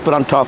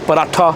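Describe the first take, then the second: First: The word is said with an n sound. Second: The word is said without an n sound. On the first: The speaker's own region says it this way. "we do say parantha with an N" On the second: Some people from other regions say it this way. "Some people say paratha"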